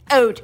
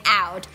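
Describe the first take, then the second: First: "out" with raised vowel, near "oat"; Canadian "out". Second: Said in the usual way. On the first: Shown as a demonstration. Host correcting the example, "out" with raised Canadian ou. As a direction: say "out" as a narrow "oat". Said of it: "no, no, no, I mean out". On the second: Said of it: "he used to say out".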